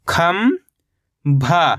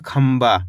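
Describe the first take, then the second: First: खंभा as long rising "kham", pause, "bhaa"; split syllables. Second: Said in the usual way. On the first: Shown as a demonstration. Teacher breaking down खंभा for learners, split syllables. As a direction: stretch खंभा into two separate syllables. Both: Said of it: "तो मिलके बन जाएगा".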